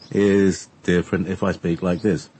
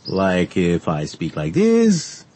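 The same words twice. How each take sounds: First: Said in the usual way. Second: Slow, drawn-out rhythm; slow rhythm demo. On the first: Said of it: "You see? It's different". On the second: Shown as a demonstration. Demonstrating accent rhythm to co-host, slow and drawn out. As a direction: stretch each word out slowly to show the rhythm. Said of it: "The accent is rhythm".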